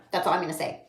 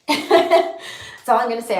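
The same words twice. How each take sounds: First: Said in the usual way. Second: Teary laugh. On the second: Real, not acted. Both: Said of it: "I just miss him".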